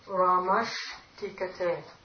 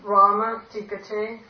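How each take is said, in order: First: The first word ends in an 'sh' sound. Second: The first word ends without an 'sh' sound.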